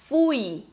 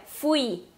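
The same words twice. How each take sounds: First: "fui" as FUI, weight on the U; Portuguese pronunciation. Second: "fui" as fu-I, Spanish style; stress on the I. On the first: Teacher contrasts the two languages, Portuguese pronunciation. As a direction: lean on the U of "fui". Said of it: "em português a gente fala". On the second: Teacher contrasts it with Portuguese, stress on the I. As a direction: put the weight of "fui" on the I. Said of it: "Sílaba tônica lá no i". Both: Shown as a demonstration.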